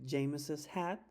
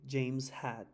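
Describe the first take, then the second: First: The name gets an added extra 'iz' syllable. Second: The name has no added extra syllable.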